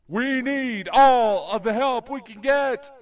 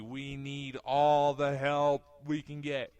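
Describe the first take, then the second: First: It is said in a dramatic, echoing way. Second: It is said in a plain, matter-of-fact way.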